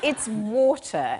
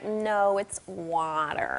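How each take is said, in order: First: Water is said with a British accent. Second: Water is said with an American accent.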